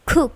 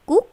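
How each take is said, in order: First: The k is released with a strong burst. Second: The k is released weakly, without a burst. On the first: The speaker calls it right. "tetapi cook with plosive" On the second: The speaker calls it wrong. "Bukan cook"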